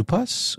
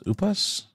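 First: "Upas" starting with a "you" sound; tentative pronunciation. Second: "Upas" starting with a plain "oo" sound; alternative pronunciation. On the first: Co-host guessing at the kit's name, tentative "YOO-pus". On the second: Co-host trying the kit's name another way, questioning "OO-pus". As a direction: say "Upas" as OO-pus, softer, rising high. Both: Shown as a demonstration. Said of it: "maybe it's pronounced".

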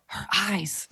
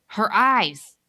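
First: Choked, breathy horror; strangled whisper. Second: Strangled cry. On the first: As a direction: gasp the words out strangled. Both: Acted. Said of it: "in a strangled voice, whispers".

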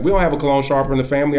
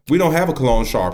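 First: Quick denial. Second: Flat denial. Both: Retold or imitated. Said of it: "He said it just like that".

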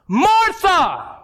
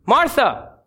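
First: Much higher, drawn-out mock shout; escalated exasperated call. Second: Short, restrained call of her name; first warning call. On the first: Jesus calls talkative Martha a second time, escalated exasperated shout. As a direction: call her name like a parent losing patience. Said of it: "you escalate". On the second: Acted. Jesus first tries to get Martha's attention, restrained call. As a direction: call her name, holding back exasperation. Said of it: "I can imagine Jesus saying it".

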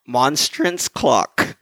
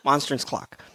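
First: Slow, carefully separated MONSTRANCE CLOCK. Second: Quicker, run-together MONSTRANCE CLOCK; said fast. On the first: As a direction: say MONSTRANCE CLOCK slowly, holding back a laugh. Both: Shown as a demonstration. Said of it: "If I say it fast".

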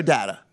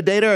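First: DATA as DAT-uh; first vowel of data as in cat; short-a data. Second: DATA as DAY-tuh; first syllable of data rhymes with day; long-a data. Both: Shown as a demonstration. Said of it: "Are you a data or data?".

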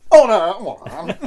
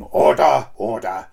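First: High, loud mock Speaker's cry; posh order call. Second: Sing-song Welsh "Order, order"; lilting Welsh Speaker of the House; Welsh accent. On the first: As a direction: bellow "Order, order" up high, laughing. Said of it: "And then you've got this". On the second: Retold or imitated. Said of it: "you've got this Welsh voice going".

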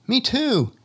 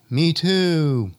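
First: High shout across the valley; calling out. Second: Far-off echo of the call. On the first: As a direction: yell it to the far ridge. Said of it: "Someone else calls out". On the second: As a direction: sound it like it bounces back. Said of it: "we hear back". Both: Acted.

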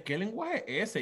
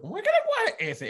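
First: Said in the usual way. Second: Incredulous echo. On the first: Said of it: "los nenes". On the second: Retold or imitated. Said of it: "Y yo".

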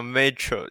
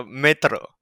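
First: Metro said with an English r. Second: Metro said with a tapped Spanish r; rolled r. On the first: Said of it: "你不能像是念英文一样". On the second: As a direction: metro with a single tap on the r. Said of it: "要metro这样子". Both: Shown as a demonstration.

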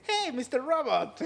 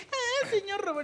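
First: English dub version. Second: Spanish dub version. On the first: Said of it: "le hace". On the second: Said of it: "en lugar de decir". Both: Retold or imitated.

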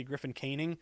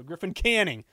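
First: "Canning" said KAY-ning, long a as in cane; wrong pronunciation. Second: "Canning" said KAN-ning, short a as in can; correct pronunciation. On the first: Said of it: "I used to say Griffin Canning". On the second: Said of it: "it's Griffin Canning". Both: Shown as a demonstration.

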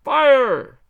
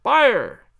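First: Loudest, highest cry of fire; full-throated yell of fire; louder shout. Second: Loud, high cry of fire; a firm shouted fire. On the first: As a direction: bellow it out all together. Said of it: "a little louder". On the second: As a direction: call out the alarm on cue. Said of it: "I will trouble you once again". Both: Acted.

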